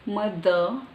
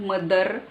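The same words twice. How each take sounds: First: The word is said with a British pronunciation. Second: The word is said with a non-British pronunciation. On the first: The speaker calls it right. "The, it's British" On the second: The speaker calls it wrong. "It's not mother"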